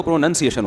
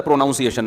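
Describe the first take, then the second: First: پروننسیشن with "nun" in the middle; corrected pronunciation. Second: پروناؤنسیشن with "noun" in the middle; taught mispronunciation. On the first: Preacher passing on the correction, short "nun" in پروننسیشن. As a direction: say پروننسیشن as "pro-NUN-see-ay-shun". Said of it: "تو پروننسیشن ہوتا ہے". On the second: Preacher recalling his teacher's version, "noun" vowel in پروناؤنسیشن. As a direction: say پروناؤنسیشن as "pro-NOUN-see-ay-shun". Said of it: "ہمارے استاذ نے بتایا تھا". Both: Shown as a demonstration.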